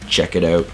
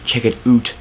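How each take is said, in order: First: 'Out' has a plain, standard vowel. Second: 'Out' sounds like 'oot', a Canadian accent.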